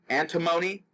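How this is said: The word is said in the American way. "American English typically uh, pronounces it as antimony"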